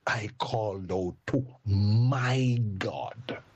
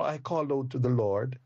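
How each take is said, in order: First: Slow, leaning on the word my in "my God"; drawn-out "I called out to my God" with weight on my; stress on my. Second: Said in the usual way. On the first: Shown as a demonstration. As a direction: land hard on my, make God personal. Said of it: "Isn't this emphatic?". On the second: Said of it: "But no, in the other part of the verse".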